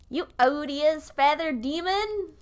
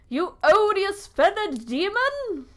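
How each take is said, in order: First: It is spoken in an American accent. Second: It is spoken in a non-American accent.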